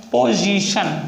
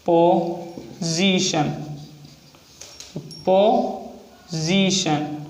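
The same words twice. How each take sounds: First: Said in the usual way. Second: position stretched out very slowly; position said slow and drawn out; slow dictation. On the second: Shown as a demonstration. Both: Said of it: "next example है position".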